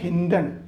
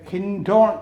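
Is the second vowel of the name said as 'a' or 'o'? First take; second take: a; o. First: The second vowel is a short 'a' sound. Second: The second vowel is a long 'o' sound. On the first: This is how the name is actually said. "എന്നാണ് ഉച്ചാരണം" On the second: This is how the name is written. "എന്നാണ് spelling"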